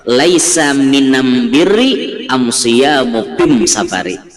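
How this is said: The article is said with an m sound.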